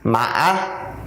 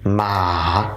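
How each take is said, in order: First: The pitch goes down, up, then down again. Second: The pitch dips down and then rises back. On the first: It means horse. "go down, go up, and go down again with your voice" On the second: It means tomb. "drop your voice, go a little down, and you got to raise it back up"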